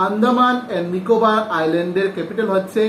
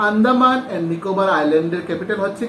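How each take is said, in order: Both takes have the same delivery.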